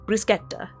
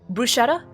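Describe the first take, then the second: First: It is said with an Italian pronunciation. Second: It is said with an American English pronunciation. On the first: The speaker calls it right. "If you want to pronounce it quote unquote correctly" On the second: The speaker calls it wrong. "I'm going to give the American pronunciation first"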